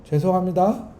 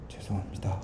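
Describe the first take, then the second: First: Mocking "죄송합니다" with a rising sneer; sarcastic apology. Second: Very soft, low, earnest "죄송합니다"; bow your head and say "죄송합니다" gently; sincere apology. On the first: Preacher contrasting a scornful apology, mocking. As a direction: say "죄송합니다" as if rolling your eyes. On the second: Preacher contrasting a true apology, hushed and sincere. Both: Shown as a demonstration. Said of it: "이 말은 신기하게 달라요".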